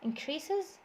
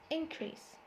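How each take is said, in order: First: "increases" with CREA stressed, rising at the end; verb stress. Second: "increase" stressed on IN, high then falling; IN-crease for "increase", softer second syllable; noun stress. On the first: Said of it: "the stress is on the second syllable". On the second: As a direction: hit the first syllable of "increase". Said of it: "في فرق في النطق". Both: Shown as a demonstration.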